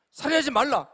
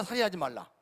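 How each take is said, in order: First: Louder and higher; emphatic proclamation. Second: Said in the usual way. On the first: Shown as a demonstration. Preacher thundering the commandment at the congregation, loudly. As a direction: declare 살인하지 말라 with full preaching force.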